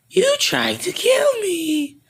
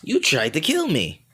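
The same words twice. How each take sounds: First: Very high, slow creature squeal; hammed-up squealing monster threat; Boo. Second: Toned-down creature voice, moderately high; a less squeaky monster threat; Boo. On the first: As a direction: draw it out in a high cartoon voice. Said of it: "I'm Boo". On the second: Acted. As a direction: swoop up high, then fall. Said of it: "forget it".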